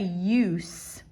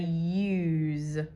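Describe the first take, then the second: First: The word ends with a hissing S sound. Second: The word ends with a buzzing Z sound. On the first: The speaker calls it wrong. "We don't say use" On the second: The speaker calls it right. "we say use when we're using it in this context"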